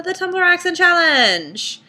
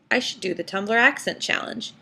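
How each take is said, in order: First: High, louder, slow showman title; grand announcement. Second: Said in the usual way. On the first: Acted. Presenting the challenge to her viewers, game-show announcer style.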